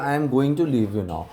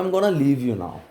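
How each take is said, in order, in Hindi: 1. 'Going to' दो पूरे शब्दों की तरह बोला जाता है। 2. 'Going to' मिलकर 'gonna' बन जाता है। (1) "आई के साथ एम गोइंग टू लगा दिया" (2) "गोइंग टू को हम मर्ज करके गोना कर देते हैं"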